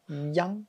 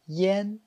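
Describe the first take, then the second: First: The vowel sounds like 'an'. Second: The vowel sounds like 'en'. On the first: "il y a des gens qui le prononcent yang" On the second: "se prononce I E N. Comme ça"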